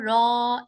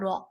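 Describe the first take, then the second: First: The vowel is drawn out long. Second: The vowel is said short and quick. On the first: The speaker calls it wrong. "इसको रॉ ऐसे नहीं ना किया stretch" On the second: The speaker calls it right. "हमने इसको क्विकली ही पढ़ा है"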